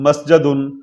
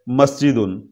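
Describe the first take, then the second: First: The second syllable has the vowel a. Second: The second syllable has the vowel i. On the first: This is the form the verb pattern predicts. The speaker calls it wrong. "आना तो चाहिए मस्जदुन" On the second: This is the form actually heard from Arabs. The speaker calls it right. "लेकिन पढ़ा जाता है मस्जिदुन"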